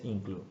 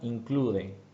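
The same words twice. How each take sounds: First: The word is said with English sounds. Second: The word is read with Spanish sounds.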